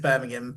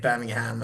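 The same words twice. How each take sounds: First: The last syllable is said weak and unstressed. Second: The last syllable is said with strong stress. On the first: This is how locals say the city's name. "for me, it's Birmingham" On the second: This is how Americans say the city's name. "put the emphasis on the ham"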